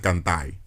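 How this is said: The final R is pronounced like an I. This is how speakers from Cibao say it. "they say they R's like I's"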